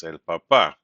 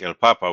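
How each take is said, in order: First: "papa" said pa-PA, weight on the last syllable; shifted final stress. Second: "papa" said PA-pa, weight on the first syllable; stress on second-last syllable. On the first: Teacher shows what the accent mark does, final-syllable stress on "papa". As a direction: land firmly on the second pa of "papa". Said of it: "It's shifted stress". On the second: Teacher shows a word needing no accent mark, first-syllable stress on "papa". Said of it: "the stress is on the second and last syllable". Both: Shown as a demonstration.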